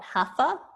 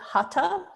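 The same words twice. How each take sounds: First: The middle consonant is an English th sound. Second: The middle consonant is a plain t sound. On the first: The speaker calls it wrong. "not Hatha" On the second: The speaker calls it right. "how I pronounced it Hatha ... The H is silent"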